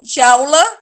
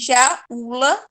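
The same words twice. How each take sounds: First: The two vowels are run together quickly. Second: The two vowels are split into separate syllables. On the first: The speaker calls it right. "tudo junto" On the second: The speaker calls it wrong.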